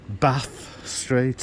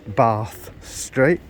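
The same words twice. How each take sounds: First: It is said in a northern English accent. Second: It is said in a southern English accent.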